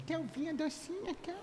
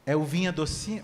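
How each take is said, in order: First: High, soft cooing uvinha docinha; sweet little voice. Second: Said in the usual way. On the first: Shown as a demonstration. Telling your brother in that little voice, cooing. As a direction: coo it sweetly like to a child. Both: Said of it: "com aquela vozinha assim".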